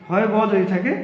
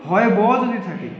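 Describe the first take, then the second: No difference in how they are said.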